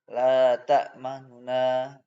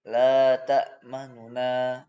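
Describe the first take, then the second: First: The final n carries a faint, short vowel. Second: The same.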